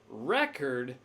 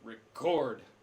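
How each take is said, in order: First: The stress is on the first syllable. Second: The stress is on the second syllable. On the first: It is used as a noun. "as the noun, we put the stress on the first syllable" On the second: It is used as a verb. "as a verb, we put it on the second syllable"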